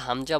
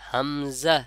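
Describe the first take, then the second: First: The middle consonant is a j sound. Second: The middle consonant is a z sound. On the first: The speaker calls it wrong. "কিন্তু হামজা বলা যাবে না" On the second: The speaker calls it right. "কি বলতে হবে? হামজা।"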